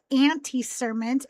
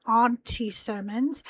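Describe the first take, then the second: First: "Auntie" said like the insect ant, a flat a plus "-tee". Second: "Auntie" with an open ah, like "ahn-tee". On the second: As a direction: give "Auntie" the broad ah vowel. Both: Shown as a demonstration. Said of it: "A U N T I E".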